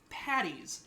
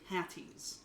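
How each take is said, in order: First: The middle consonant sounds like a D. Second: The middle consonant sounds like a T. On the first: The speaker calls it right. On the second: The speaker calls it wrong.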